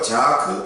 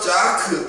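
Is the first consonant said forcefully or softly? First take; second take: softly; forcefully. First: The first consonant is said lax and soft. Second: The first consonant is said tense and forceful. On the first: It means laughter. "짜크라고 하지 않고 자크 이렇게 이야기하면" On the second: It means a sigh or lament. "이렇게 세게 발음하면요"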